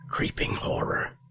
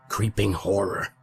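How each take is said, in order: First: It is said in a barely audible whisper. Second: It is said a little louder than a whisper.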